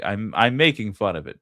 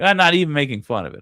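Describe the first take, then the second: First: Said in the usual way. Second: "not even" punched higher, louder and fast; stress on not even. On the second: Shown as a demonstration. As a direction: hit "not even" hard, then rush the rest.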